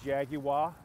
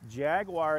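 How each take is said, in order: First: It is pronounced a non-American way. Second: It is pronounced the American way. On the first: "We don't say" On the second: "is how we say it here in the United States"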